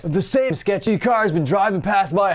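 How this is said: It is read in a put-on, imitated voice.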